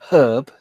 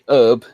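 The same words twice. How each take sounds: First: The word is said with a non-American pronunciation. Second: The word is said with an American pronunciation. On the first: "instead of herb" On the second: "when the Americans say herb"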